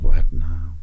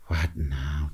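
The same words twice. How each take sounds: First: Louder "What now?" as the inner voice; a louder, fed-up "What now?" inside his head; inner exasperation. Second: Soft, low "What now?" said under the breath; quiet aside. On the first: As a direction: let "What now?" burst out as his real thought. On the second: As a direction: keep "What now?" polite and hushed. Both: Retold or imitated. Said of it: "Deep down, I'm like".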